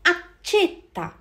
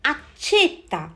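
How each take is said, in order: The two takes are said the same way.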